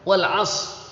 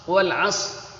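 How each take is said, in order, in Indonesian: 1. Bunyi s itu berat dan emfatis. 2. Bunyi s itu berat dan emfatis.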